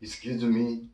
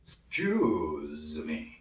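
First: "Excuse me" with the final "me" lifted and held. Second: "Excuse me" very slow, long stretched "cuse", low falling end; stressed "cuse". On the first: Teacher shows how to convey meaning, lifted "me". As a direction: lift the last word of "Excuse me". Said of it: "유난히 더 들어줍니다". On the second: Teacher models the accent for learners, stressed "cuse". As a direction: draw out "cuse" in "Excuse me", softly. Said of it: "Q로 발음이 되겠죠". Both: Shown as a demonstration.

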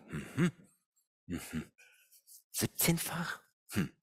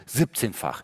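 First: "Siebzehnfach?" echoed softly with a doubting rise; sceptical echo. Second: Said in the usual way. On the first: Retold or imitated. Coach doubts colleague's deal, soft sceptical echo. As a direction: quietly repeat "Siebzehnfach?" as if you don't buy it. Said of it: "Da habe ich mir gedacht". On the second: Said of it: "rief mich nämlich meine Kollegin an".

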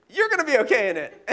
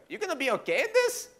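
First: YOU'RE punched high and loud; stress on YOU'RE. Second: High-pitched, laughing disbelief; mock incredulous question. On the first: Retold or imitated. Son turning the question back on dad, YOU'RE stressed. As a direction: lean hard on "You're", amused. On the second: Dad questioning son at the tiny plane, incredulous. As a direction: ask it squeaky with doubt.

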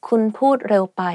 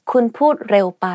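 No difference in how they are said.

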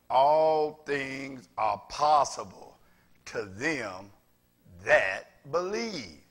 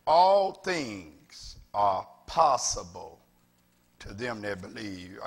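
First: "All things are possible" drawn out slow and loud; slow, loud unison recitation; slow call-and-response recitation. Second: Drawn-out, stressed reading of the verse; slow, weighty proclamation of "All things are possible"; slow emphatic scripture. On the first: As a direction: lead the congregation slowly, punching "All". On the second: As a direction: lean hard on "All" and stretch it slow. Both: Shown as a demonstration. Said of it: "Everybody say that with me".

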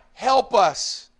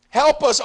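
First: Said in the usual way. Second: Higher, louder cry of "Help us"; pleading shout; loud plea. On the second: Acted. Repeats the psalm plea louder.

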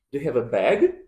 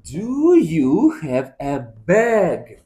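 First: Said in the usual way. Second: Slowed, loud, word by word; slow and clear. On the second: Shown as a demonstration. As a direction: spell it out slowly for a child.

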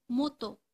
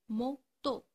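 First: Said in the usual way. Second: "moto" in two separate beats, mo, to; split into syllables. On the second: Shown as a demonstration. Teacher dictating to pupils, "moto" syllable by syllable. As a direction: break "moto" with a pause after mo. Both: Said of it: "les mots qui contiennent le son que".

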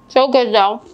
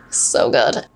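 First: "So good though" through a mouthful; mouth full. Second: Said in the usual way. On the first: Real, not acted. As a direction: talk round a bite of biscotti. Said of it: "I always talk with my mouth full".

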